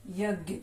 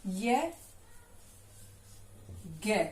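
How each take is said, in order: First: Said in the usual way. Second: यज्ञ stretched very slowly and softly; drawn out slowly. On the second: Shown as a demonstration. Teacher drawing out यज्ञ for pupils to repeat. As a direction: sound out यज्ञ slowly for the class. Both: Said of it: "और दूसरा".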